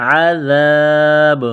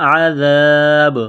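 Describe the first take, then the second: Both takes have the same delivery.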